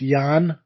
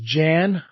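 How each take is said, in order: First: The name is said the foreign way. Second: The name is read as it is spelled. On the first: "in a foreign country like Switzerland, I believe it's Jan" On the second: "it says Jan"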